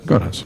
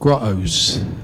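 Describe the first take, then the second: First: It is said in the speaker's usual accent. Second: It is said in a London accent.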